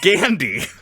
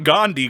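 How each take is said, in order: First: The name sounds like candy starting with G. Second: The name is said the usual way, unlike candy. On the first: The speaker calls it right. "Spelled like candy, but with a G" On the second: The speaker calls it wrong. "Not Gandhi"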